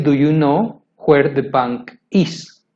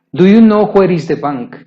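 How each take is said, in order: First: Slowed-down correct version, word by word; teacher modelling the right order, slow; slow careful model sentence. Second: Said in the usual way. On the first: Shown as a demonstration. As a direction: spell it out slowly for the learner. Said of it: "Se debe decir". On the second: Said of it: "Nunca digas".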